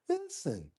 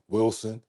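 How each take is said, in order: First: The name is said softly and gently. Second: The name is said strongly and forcefully. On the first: The speaker calls it right. "He says Wilson. That's his name" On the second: The speaker calls it wrong. "He don't say it in a strong way like Wilson"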